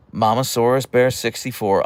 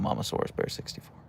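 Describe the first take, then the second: First: Said in the usual way. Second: Whispered repeat. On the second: Real, not acted. Repeating the viewer name.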